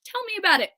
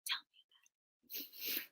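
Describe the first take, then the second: First: Said in the usual way. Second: Whispered, slow and soft; hushed whispered aside. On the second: Shown as a demonstration. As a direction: mutter it under your breath.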